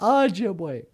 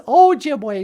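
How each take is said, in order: First: The first vowel is not 'oh' as in 'go'. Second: The first vowel is 'oh' as in 'go'. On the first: The speaker calls it wrong. "not Ojibwe" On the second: The speaker calls it right. "O sounds like the word O in go, or Ojibwe. Yeah, it's Ojibwe"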